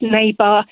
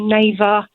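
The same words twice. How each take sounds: First: The middle consonant is a clear b. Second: The middle consonant sounds like a v. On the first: The usual English way. The speaker calls it right. "instead of" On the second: Said as a Spanish speaker who cannot hear the difference would. The speaker calls it wrong. "my Spanish friend will say"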